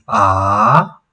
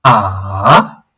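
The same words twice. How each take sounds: First: "ah" rising upward from mid to high; second tone. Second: Low "ah" that dips down and rises; third tone. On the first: Teacher contrasting second tone with third on "ah". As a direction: lift "ah" up like asking, second tone. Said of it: "the second is". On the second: Teacher contrasting third tone with second on "ah". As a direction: drop "ah" low, then let it lift, third tone. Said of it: "the third one is". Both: Shown as a demonstration.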